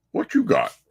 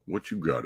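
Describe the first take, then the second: First: Higher voice for the cat; high pet-talk voice. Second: Said in the usual way. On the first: Acted. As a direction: coo it up at the cat. Talking to the cat Abigail.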